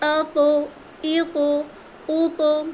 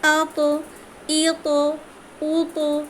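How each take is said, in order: First: The final consonant is released with a bounce. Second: The same.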